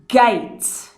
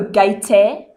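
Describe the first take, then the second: First: The word ends on the t sound. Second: An extra vowel sound follows the t. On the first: The speaker calls it right. "I do not pronounce the e sound" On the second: The speaker calls it wrong. "I don't go gate"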